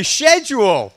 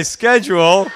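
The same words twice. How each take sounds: First: Loud British "SHED-jool"; British schedule. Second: SCHEDULE starting with hard "sk"; loud American "SKED-jool". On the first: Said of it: "I would say schedule". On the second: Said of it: "no, you would say schedule". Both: Shown as a demonstration.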